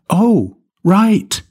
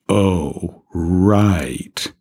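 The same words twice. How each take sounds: First: It sounds surprised, like an exclamation. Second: It sounds sarcastic and mocking.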